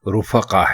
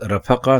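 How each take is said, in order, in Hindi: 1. पहले अक्षर में u स्वर है। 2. पहले अक्षर में a स्वर है। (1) "दुरुस्त लफ्ज" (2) "रे के ऊपर जबर नहीं बल्कि पेश है"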